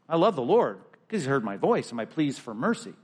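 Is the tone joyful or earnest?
joyful. It is read with joyful excitement.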